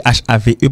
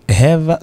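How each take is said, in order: First: American "have" with a long, open A; American pronunciation. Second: British "have", said like "hev"; short "hev" for a British "have"; "have" in a British accent, closer vowel; British pronunciation. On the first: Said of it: "c'est la prononciation américaine". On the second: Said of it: "la prononciation britannique". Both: Shown as a demonstration.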